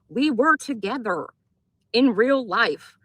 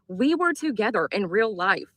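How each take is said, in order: First: It is said slowly and deliberately. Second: It is said at a normal pace.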